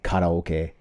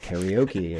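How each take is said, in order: First: It is pronounced with Japanese-style sounds. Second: It is pronounced with English-style sounds. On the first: "don't say karaoke" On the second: "I say like karaoke and karate. Like, because I'm speaking English"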